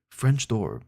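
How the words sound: It is read in a posh advertising voice.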